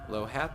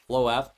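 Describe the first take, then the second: First: The H sound is pronounced. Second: The H sound is left silent. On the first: The speaker calls it right. "Oh, it is pronounced" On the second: The speaker calls it wrong. "rather. Always keep on forgetting to not pronounce the H"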